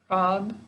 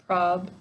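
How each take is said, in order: The two takes are said the same way.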